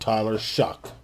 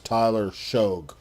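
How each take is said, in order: First: The surname ends with a K sound. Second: The surname ends with a G sound. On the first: The speaker calls it wrong. "this idiot wants to call himself" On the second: The speaker calls it right. "I say his name should be pronounced as"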